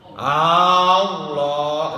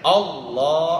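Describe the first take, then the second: First: The first vowel is drawn out long. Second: The first vowel is short, the second long. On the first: The speaker calls it wrong. "enggak boleh panjang a-nya. Allah itu enggak boleh" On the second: The speaker calls it right. "A-nya harus pendek. Allah, lohnya yang panjang"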